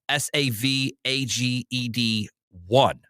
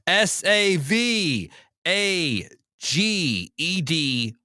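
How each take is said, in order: First: The letters are said fast. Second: The letters are said slowly.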